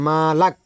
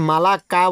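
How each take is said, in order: First: The word ends on a bare consonant. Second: The word ends with an added final vowel. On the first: The speaker calls it right. "মালাক বলতে হবে" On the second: The speaker calls it wrong. "এখানে মালাকা বলা যাবে না"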